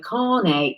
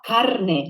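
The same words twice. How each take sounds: First: The r is a soft English-style r. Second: The r is a Spanish tapped r. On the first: The speaker calls it wrong. "try to avoid saying it in an English way" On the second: The speaker calls it right. "like the Spanish would sound"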